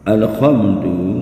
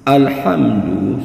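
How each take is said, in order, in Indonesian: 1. Bunyi h itu biasa saja, lembut dan berdesah. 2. Bunyi h itu kasar, berasal dari tenggorokan. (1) "kalau dirubah" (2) "Alhamdu sesungguhnya bermakna segala puji"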